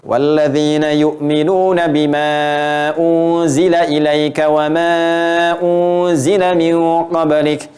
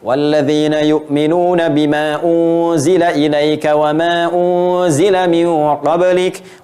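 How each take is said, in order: First: The stretched vowels are held about two seconds. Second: The stretched vowels are held about one second.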